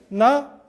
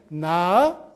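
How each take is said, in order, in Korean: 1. 이 음절은 높은 음으로 발음해요. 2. 이 음절은 낮게 시작해서 높게 올라가요. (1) "점이 있으면" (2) "점이 두 개면"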